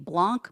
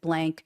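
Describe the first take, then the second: First: It is said unlike the English word 'blank'. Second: It is said like the English word 'blank'. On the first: This is how the spelling suggests it is said. "Looks like it should be Blanc" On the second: This is how people actually say it. "everybody I've heard pronounces it Blank"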